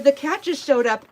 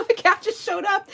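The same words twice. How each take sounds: First: Said in the usual way. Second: Much higher, mock innocent; innocent put-on voice. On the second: Telling the friend the cat just appeared, mock innocent. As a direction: sell the lie sweetly, pitched up. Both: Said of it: "That was a lie".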